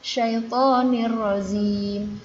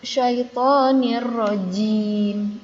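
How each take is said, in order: First: The last word begins with a z sound. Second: The last word begins with a j sound. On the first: The speaker calls it wrong. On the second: The speaker calls it right.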